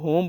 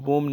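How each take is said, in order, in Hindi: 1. शब्द की शुरुआत h ध्वनि से होती है। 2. शब्द की शुरुआत w ध्वनि से होती है। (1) "इसको होम बोलेंगे" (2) "वोम नहीं बोलेंगे"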